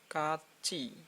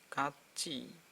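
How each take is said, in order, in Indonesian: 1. Suku kata terakhir diucapkan dengan bunyi CH. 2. Suku kata terakhir diucapkan dengan bunyi CH.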